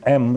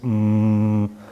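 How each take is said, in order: First: The m sound is short and plain. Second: The m sound is a long vibrating hum. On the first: The speaker calls it wrong. "It isn't M" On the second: The speaker calls it right. "it's mm, because it is vibrated"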